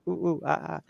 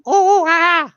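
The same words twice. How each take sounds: First: Hooting giggly monkey. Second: Very high, loud mocking hoots; hooting giggly monkey. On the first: Retold or imitated. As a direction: hoot it quietly, half to yourself. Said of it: "I'm like". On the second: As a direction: hoot high and loud to tease. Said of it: "I used to always make fun of them".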